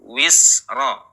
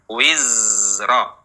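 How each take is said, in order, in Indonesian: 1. Konsonan tengahnya bunyi s desis. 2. Konsonan tengahnya bunyi z dengung. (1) "Jangan dibaca wisra" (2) "Tapi bagaimana Bapak Ibu?"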